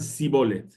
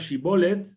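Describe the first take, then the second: First: The word begins with an 's' sound. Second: The word begins with a 'sh' sound. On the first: The speaker calls it wrong. "lo llaman sibolet" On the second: The speaker calls it right. "la palabra shibolet"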